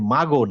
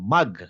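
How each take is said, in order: First: The final consonant bounces with an echo vowel. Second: The final consonant stops cleanly without an echo. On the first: The speaker calls it wrong. "আপনি যদি মাগো বলেন তখন কি হয়ে যাবে বলেন তো? কলকলা হয়ে যাবে।" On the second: The speaker calls it right. "এটা হচ্ছে মাগো না মাগ।"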